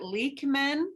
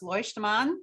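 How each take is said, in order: First: The name is said with an anglicized vowel. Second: The name is said with its German vowel. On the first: This is how the husband's family says it. The speaker calls it wrong. "his family pronounces it" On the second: This is the original, proper form of the name. The speaker calls it right. "it's supposed to be pronounced"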